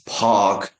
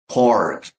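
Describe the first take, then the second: First: The R before the K is dropped, like ah. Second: The R before the K is clearly pronounced. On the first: "The British English. It's saying R like ah" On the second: "American English? It has r sounds used a lot"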